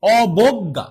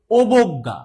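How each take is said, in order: First: অবজ্ঞা starting on open "ɔ", "ɔ-bog-ga", emphatic and loud; correct open-vowel pronunciation. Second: অবজ্ঞা starting on rounded "o", "obogga", punched loud; wrong closed O pronunciation. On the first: Teacher showing how everyone says it, অবজ্ঞা as "ɔbogga". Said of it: "সবাই আমরা". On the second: Teacher showing what nobody says, অবজ্ঞা as "obogga". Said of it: "এরকম কি কেউ আছো". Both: Shown as a demonstration.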